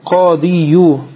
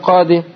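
First: The word ends with a pronounced final 'u' vowel. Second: The word ends without any final 'u' vowel. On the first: The case ending is spelled out in full. The speaker calls it wrong. "тяжело говорить яду кадию" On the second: The case ending is left implied. The speaker calls it right. "говорили просто кады"

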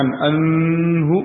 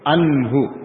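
First: The n sound is blurred into the next sound. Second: The n sound is pronounced clearly and distinctly. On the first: The speaker calls it wrong. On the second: The speaker calls it right. "dibaca dengan izhar, izhar jelas"

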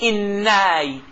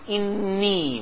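First: The n is followed by an a vowel. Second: The n is followed by an i vowel. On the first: The speaker calls it wrong. "ما نقولش إناي، ما نفتحش النون" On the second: The speaker calls it right. "إذا نطقناه نقول إني"

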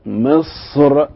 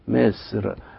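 First: The s-sound is heavy and emphatic. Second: The s-sound is light, close to plain s. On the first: "ما هنلاقيش الصاد طالعة بهذه الصورة" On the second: "فكأن الصاد بتبقى قريبة في النطق من حرف السين"

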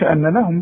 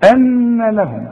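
First: The doubled n is cut short without nasal hold. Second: The doubled n is held with a nasal hum. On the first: The speaker calls it wrong. "ما تقولش ان لهم بقى" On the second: The speaker calls it right. "لا أن لهم"

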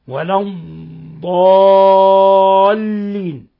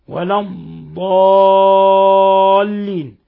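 The two takes are said the same way.

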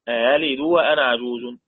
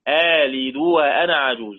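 First: The second hamza is softened, not fully pronounced. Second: The second hamza becomes a long vowel held briefly. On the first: "الهمزة المفتوحة ورش بيقرأ بالتسهيل" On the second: "هنشيل الهمزة ونحط ألف مد، مد حركتين"

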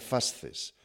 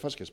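First: The c sounds like a th sound. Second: The c sounds like an s sound. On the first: The speaker calls it wrong. "En latín no hay zeta, mal dicho sería fasces" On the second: The speaker calls it right. "yo digo fasces porque es en latín se dice fasces"

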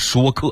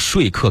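First: The first syllable sounds like shuō, as in speak. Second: The first syllable sounds like shuì, as in sleep. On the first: This is the newly standardized reading. "改成了说客" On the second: This is the older standard reading. "从说客"

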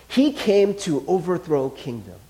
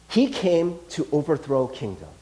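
Both takes have the same delivery.

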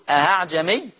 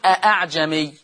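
First: The second glottal stop is softened and eased. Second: The second glottal stop is fully pronounced.

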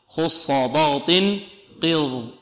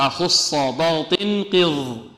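No difference in how they are said.

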